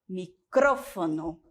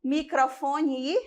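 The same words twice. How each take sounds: First: Micrófono stressed on CRÓ, slowly; Spanish stress. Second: Said in the usual way. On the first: Shown as a demonstration. Spanish teacher models micrófono stress for students. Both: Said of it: "Quando tem o acento".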